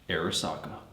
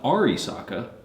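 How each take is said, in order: First: The name begins with the sound 'Ara'. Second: The name begins with the sound 'Ari'. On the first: The speaker calls it right. "we have Arasaka" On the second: The speaker calls it wrong. "Not Arisaka, which is how Chris likes to pronounce it"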